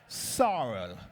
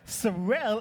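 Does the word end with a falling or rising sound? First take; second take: falling; rising. First: The word ends with a falling, down sound. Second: The word ends without a falling, down sound. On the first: The word sounds sad. The speaker calls it wrong. "Sorrel is a sad word" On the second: The word sounds happy. The speaker calls it right. "Sorrel is happy"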